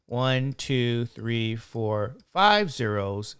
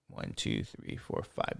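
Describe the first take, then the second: First: Said in the usual way. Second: Counting under the breath, much softer; whispered count. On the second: Real, not acted. Teacher recounting zeros for himself, whispered. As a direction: checks the count quietly to himself.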